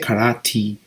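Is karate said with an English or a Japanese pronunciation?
Japanese. It is said with a Japanese-style pronunciation. "We don't say karate"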